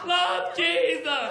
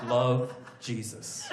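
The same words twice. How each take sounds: First: Higher, slow, insistent sign-off; needy Jesus. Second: Low, slow sign-off; understated, wounded letter ending; needy ex-girlfriend. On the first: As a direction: drag out a pleading letter ending. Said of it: "Letter number two". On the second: Jesus signing the first letter, quietly needy. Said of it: "sound like a really needy ex-girlfriend". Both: Acted.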